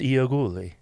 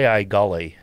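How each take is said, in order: First: The surname is said in its original Italian way. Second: The surname is said in a simplified American way. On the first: This is the original family name. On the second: This is the family's simplified local version. "we came up with a simpler way of saying the last name"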